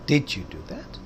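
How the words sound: The stress is on the word did. The listener can hardly believe it was really done. "यकीन ही नहीं हो रहा आपने वो वाकई किया।"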